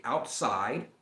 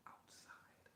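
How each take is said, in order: First: Said in the usual way. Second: Outside said in a soft whisper; whispered repeat. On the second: Shown as a demonstration. Savoring the dictionary word, a whispered outside.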